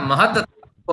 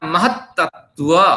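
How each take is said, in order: First: The two words are run together without a break. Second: The two words are said separately with a break. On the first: "दोनों को जोड़ के कह सकते हैं" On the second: "अलग अलग कह सकते हैं"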